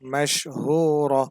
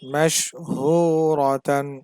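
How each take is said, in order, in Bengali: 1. শব্দটি '-ra' এর পরে কেটে যায়। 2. শব্দটি পূর্ণ '-tan' দিয়ে শেষ হয়।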